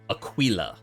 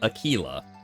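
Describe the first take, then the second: First: It is said the way classical Latin sounds. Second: It is said the Spanish way, like tequila. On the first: The speaker calls it right. "it should probably be Aquila" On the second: The speaker calls it wrong. "I've been pronouncing uh, Aquila's name wrong because I've been saying Aquila"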